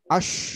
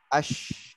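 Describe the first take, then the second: First: The air rushes straight out all at once. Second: The air spreads in the mouth before escaping. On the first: The speaker calls it wrong. "Itu menyebar semua. Enggak kebagian dalam mulutnya" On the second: The speaker calls it right. "kebagian dulu baru keluar"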